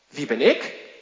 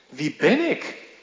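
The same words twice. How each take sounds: First: The stress falls on the word ik. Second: The stress falls on the word ben. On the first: It asks why oneself was chosen. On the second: It asks what one is worth.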